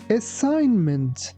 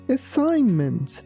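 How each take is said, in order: First: The g sound is silent in the word. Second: The same.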